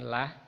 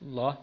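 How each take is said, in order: First: The l sound is thin and light. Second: The l sound is heavy and dark. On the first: The speaker calls it wrong. "bukan lah" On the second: The speaker calls it right. "lamnya dibaca tafkhim tebal"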